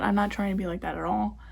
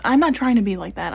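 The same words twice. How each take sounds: First: Said in the usual way. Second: Louder, punching not; emphatic. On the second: Real, not acted. Vlogger defending herself to cosmetologists, loud insistence.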